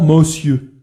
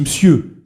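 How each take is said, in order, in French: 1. 'Monsieur' se dit avec respect, mais avec condescendance. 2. 'Monsieur' se dit d'un ton sec et dédaigneux. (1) "qui est entre le respect et la protection" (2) "ce qui semble infiniment méprisant"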